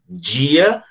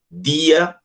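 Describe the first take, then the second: First: The d is pronounced as in Southeast Brazil. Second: The d is closed, as in Pernambuco. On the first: "no Sudeste, que fala dia e tia" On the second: "a gente que mora aqui em Pernambuco, o nosso D ele é, ele é fechado"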